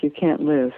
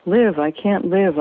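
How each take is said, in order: First: Said in the usual way. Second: Slow, mildly anguished outburst; blurted out. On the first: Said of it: "What's this talk". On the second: A narrator's reading. Woman confessing despair to the doctor, blurted out. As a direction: blurt it slowly, with a touch of despair. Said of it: "I blurt out".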